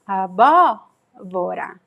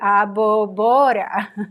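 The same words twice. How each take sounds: First: The stress falls on the second syllable. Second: The stress falls on the third syllable. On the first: The speaker calls it right. "we know that the stress is actually here" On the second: The speaker calls it wrong. "the stress would be in the second to last syllable"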